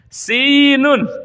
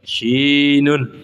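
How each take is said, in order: First: The word begins with a plain 's' sound. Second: The word begins with an 'sh' sound. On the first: This is how the word should be said. "Sin, ya Bilal, sinun" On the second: This is how someone unable to say the letter said it. "Kata Sayyidina Bilal, shin"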